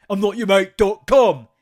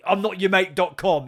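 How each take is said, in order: First: Louder, slow hammed-up yell; imitating the rude customer, full mock shout. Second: A louder take on the rude customer; imitating a rude customer, a bit louder; mock indignant, louder. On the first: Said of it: "he calls him mate accidentally again". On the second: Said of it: "He says that about four times".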